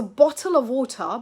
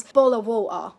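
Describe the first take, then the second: First: BOTTLE OF WATER with both Ts fully pronounced; crisp Ts in BOTTLE and WATER; clear T. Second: BOTTLE OF WATER as "bo'le o' wa'er"; Cockney glottal stop. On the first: Teacher giving the phrase before its change, clear T. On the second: Teacher imitating Cockney for learners, glottal stop. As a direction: swap both Ts in BOTTLE OF WATER for throat catches. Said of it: "that's common in accents like Cockney". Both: Shown as a demonstration.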